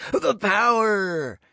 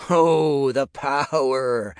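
First: The power! wailed much higher and very slow; mock dramatic cry. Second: Hammed-up wail, higher, louder and slow; mock dramatic cry. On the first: Nick mocking talk of power, building hammed-up cry. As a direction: stretch The power! into a soaring, hammed-up wail. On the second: Nick mocking talk of power, hammed-up dramatic cry. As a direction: cry it out like a ham villain, mocking. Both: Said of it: "Nick's mock dramatic cry".

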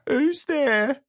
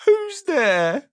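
First: High, squeaky, sad little call; a small unseen voice calling through the door. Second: Higher and louder, sad and squeaky; louder squeaky call. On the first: Mister Miserable answers the knock, sad and squeaky. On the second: Mister Miserable calls again through the door, squeaky and louder. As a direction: call it again, more insistent. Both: Acted. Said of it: "a sad, squeaky sort of voice".

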